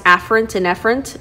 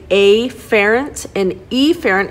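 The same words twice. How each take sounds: First: The words are pronounced in the usual way. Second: The first vowels are altered to sound distinct. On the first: "mispronounce afferent and efferent" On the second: "say afferent and efferent"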